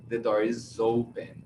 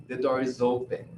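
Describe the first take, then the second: The two takes are said the same way.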